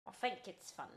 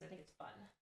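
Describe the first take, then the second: First: Put-on playful British accent. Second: Said in the usual way. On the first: Streamer asked about accents, demonstrating a British one. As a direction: repeat it in a casual British accent. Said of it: "I talk in accents pretty often".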